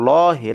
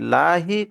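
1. l ধ্বনিটি মোটা ও ভারী। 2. l ধ্বনিটি হালকা ও পাতলা। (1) "এই লামটাকে মোটা করে পড়বো" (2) "লাহি কখনো পড়া যাবে না"

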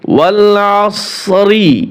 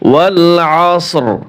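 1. শেষ শব্দটি একটি ছোট স্বরে শেষ হয়। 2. শেষ শব্দটি একটি খালি ব্যঞ্জনে শেষ হয়। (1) "মিলিয়ে যদি যান তাহলে কি পড়বেন?" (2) "এখানে যদি ওয়াকফ করি আমরা, তাহলে এই যে রজের রি রি পড়তে হবে না"

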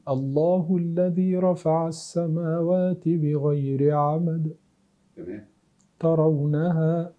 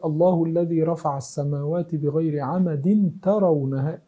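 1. يوجد وقف بعد 'bi-ghayri amad'. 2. لا يوجد وقف بعد 'bi-ghayri amad'. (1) "يبقى لابد أن تقف تقول" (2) "لكن لو قلت"

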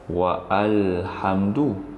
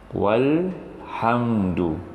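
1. Vokal 'a' yang terpisah dibunyikan setelah 'wa'. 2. 'wa' langsung menyambung ke 'lhamdu'. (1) "Kita tidak boleh membaca wa'alhamdu" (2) "huruf alif ini dianggap tiada"

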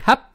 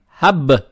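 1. Конечный согласный глухой. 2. Конечный согласный звонкий. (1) "не хаб" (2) "букву ба не оглушаем"

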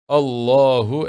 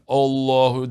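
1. İlk ünlü A ile E arasında orta bir sestir. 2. İlk ünlü geniş, kalın bir A'dır. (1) "Onun orta lafzıyla efendim okunması yerinde olacaktır" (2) "Yani bir A veya biraz daha kaba şeklinde o da doğru değil"

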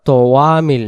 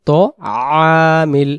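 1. একটি 'w' ধ্বনি দুটি স্বরধ্বনিকে যুক্ত করে। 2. দুটি স্বরধ্বনি 'w' ধ্বনি ছাড়াই মিলিত হয়। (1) "আমরা অনেকে বলি আলা তোয়ামিল মিসকিন, তোয়ামিল বললে এখানে ওয়াও জবর ওয়া আসতেছে" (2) "তাহলে এখানে সহি উচ্চারণ তো আমিল"

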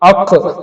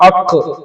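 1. അവസാന വ്യഞ്ജനം കേൾക്കാവുന്ന ഒരു കുതിപ്പോടെ വിടുന്നു. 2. അവസാന വ്യഞ്ജനം കേൾക്കാവുന്ന ഒരു കുതിപ്പോടെ വിടുന്നു.

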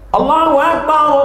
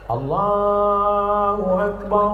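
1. Frasa itu diucapkan dengan keras dan tegas. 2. Frasa itu diucapkan dengan pelan dan lembut. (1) "Tapi tidak kuat macam itu"

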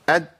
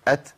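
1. الحرف الأخير مقطوع من غير نفس. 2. الحرف الأخير بيتنطق مع نفس مسموع. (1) "بقطع النفس، فبيتحول لسان مخرج الدال" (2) "لو انا مشيت النفس"

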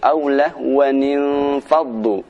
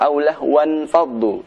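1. Kedua kata tersambung dengan suku kata ni tambahan. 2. Kedua kata tersambung tanpa suku kata ni tambahan. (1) "tapi aulahwanin faddu" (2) "Tidak benar jika dibaca aulahwan faddu"

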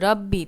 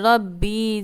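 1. স্বরধ্বনিটি ছোট এবং দ্রুত। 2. স্বরধ্বনিটি টানা এবং ধীর। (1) "তাড়াতাড়ি করে পড়তে হবে" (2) "অনেকে পড়েন যে রব্বি জিদ নি"

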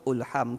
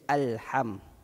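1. Kata ini diawali dengan vokal u. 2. Kata ini diawali dengan vokal a. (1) "ulham ke" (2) "Mesti dibaca alham"

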